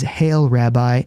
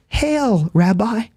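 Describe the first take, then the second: First: Slow, drawn-out Hail, Rabbi with a smile; mild smiling betrayal, taken slow; slow smiling greeting. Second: High, smiling mock greeting, chillingly casual; Judas's falsely warm hail, pitched up high. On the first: Retold or imitated. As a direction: let the greeting linger slowly. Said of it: "with a kiss now and with a big smile". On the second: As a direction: greet him sweetly like a traitor with a grin. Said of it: "with a big smile and a nonchalance that is chilling".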